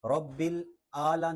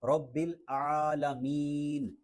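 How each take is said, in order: First: "العلیٰ" with a plain long a; wrong ain. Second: Slow "العالمین" with throaty ain; ain from mid-throat. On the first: Teacher shows the mistake, "العلیٰ" lacking throat sound. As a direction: say "العلیٰ" as aala, without ain. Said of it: "نہیں پڑھنا کیونکہ یہاں پہ عین ہے". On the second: Teacher models the correction, slow throaty "العالمین". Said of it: "حلق کے درمیان سے یہ ادا ہوتا ہے". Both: Shown as a demonstration.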